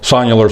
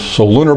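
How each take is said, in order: First: The word is said as so-NU-lar. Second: The word is said as so-LU-nar. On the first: This is the form the speaker has always heard. "I've always heard it pronounced sonular" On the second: This is how some other people say it. "Some people pronounce them solunar"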